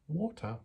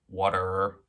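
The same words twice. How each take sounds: First: It is said in a British accent. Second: It is said in an American accent.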